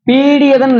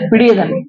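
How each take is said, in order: First: The first vowel is held long. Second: The first vowel is kept short. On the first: The speaker calls it wrong. "இல்ல" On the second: The speaker calls it right. "நெடிலே வராது"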